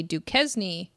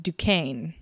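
First: Duquesne said as "doo-KEZ-nee"; mispronounced. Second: Duquesne said slowly as "doo-KANE"; correct pronunciation. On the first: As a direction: say Duquesne with a sounded Z and an extra "nee". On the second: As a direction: say Duquesne with silent S, rhyming with cane. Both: Shown as a demonstration. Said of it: "it's pronounced Duquesne".

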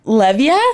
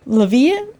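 First: Unsure "Levia", opening on a short "lev"; first-syllable stress. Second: Unsure "Levia", leaning on a long "vee"; second-syllable stress. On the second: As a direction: say "Levia" as luh-VEE-uh, questioning. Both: Shown as a demonstration. Trying two pronunciations of a surname.

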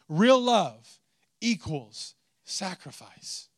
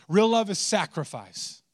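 First: Very slow, each word weighed, stress on Real; slow emphatic statement. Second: Said in the usual way. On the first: Shown as a demonstration. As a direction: let Real love equals sacrifice sink in slowly.

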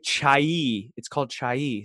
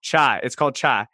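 First: "chai" drawn into two syllables, "chai-ee"; coworkers' correction. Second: "chai" as one flattened Southern syllable, toward "chah"; Southern pronunciation. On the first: Coworkers correcting him, "chai" said as "chai-ee". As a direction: stretch "chai" out with an added "ee". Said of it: "They're like". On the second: Answering coworkers at the coffee shop, Southern one-syllable "chai". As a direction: say "chai" short, with a Southern vowel. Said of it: "a slight change in my accent". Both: Retold or imitated.

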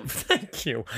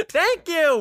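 First: Said in the usual way. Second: Much higher, excited "Thank you"; emphatic agreement. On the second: Real, not acted. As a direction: squeal "Thank you" in vindication. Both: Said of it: "repeated agreement takes".

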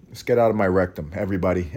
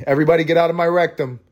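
First: Said in the usual way. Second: High, quick call-out to everybody; raised-voice joke order to the room; mock announcement. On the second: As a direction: call it out high and fast, for laughs. Repeats line as loud joke.

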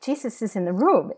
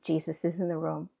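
First: Higher-pitched, wondering exclamation; retold amazement. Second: Said in the usual way. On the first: Woman in prayer tells intercessor what she sees, amazed. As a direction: report it in astonished discovery.

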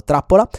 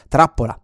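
First: "trappola" detta più forte e più alta, che sale alla fine; trappola enfatizzata. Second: Said in the usual way. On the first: Shown as a demonstration. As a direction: scandisci bene "trappola" con slancio. ("trappola" ripetuta con enfasi, voce che sale) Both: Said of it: "non ce la facevo".

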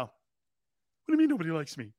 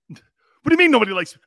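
First: Said in the usual way. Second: Loud, hurt, whiny protest; hammed-up wounded star, louder; whiny Baker Mayfield. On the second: Host mocking himself as a sulking Baker Mayfield, loud and whiny. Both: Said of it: "I sound like Baker Mayfield now".

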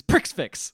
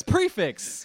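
First: "Prix Fix" botched with a hard ks ending on each word; mispronounced prix fixe. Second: "prefix" as "pree-fix", no ks in the first syllable; higher, laughing correction, "prefix" with an open "pree"; corrected pronunciation. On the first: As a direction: say "Prix Fix" as "pricks ficks", both x's sounded. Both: Retold or imitated. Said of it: "he says it completely wrong".

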